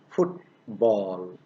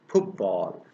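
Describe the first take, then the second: First: The t is kept before the b. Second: The t changes to match the following b. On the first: This is the form before assimilation. "football becomes" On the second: This is the form after regressive assimilation. "becomes football"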